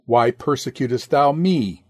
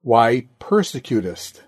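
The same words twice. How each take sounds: First: "me" emphasized at the end, falling; stress on ME. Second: "persecutest" given the emphasis after "Why"; stress on PERSECUTEST. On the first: Preacher expounding Christ's question to Saul, stress on "me". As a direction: land the weight on the final "me". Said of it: "Put the emphasis upon the word me". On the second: Preacher expounding Christ's question to Saul, stress on "persecutest". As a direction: lean on the word "persecutest". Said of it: "Put it upon the word persecutest". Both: Shown as a demonstration.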